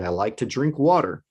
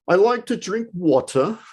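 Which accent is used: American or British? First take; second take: American; British. First: It is spoken in an American accent. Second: It is spoken in a British accent. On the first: "If you're American, you're going to say" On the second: "If you're British, you're going to say"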